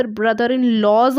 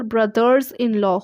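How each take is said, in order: First: Brother-in-laws, the wrong form, said as a mistake; wrong plural. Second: Brothers-in-law, the s on brothers, said slowly and clearly; correct plural. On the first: Teacher shows students the wrong plural brother-in-laws. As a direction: slowly offer brother-in-laws as the trap answer. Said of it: "तो वह गलत है". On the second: Teacher gives students the right plural brothers-in-law, slow. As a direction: stretch out brothers-in-law so the s on brothers lands. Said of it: "brother-in-law का plural brothers-in-law होगा". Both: Shown as a demonstration.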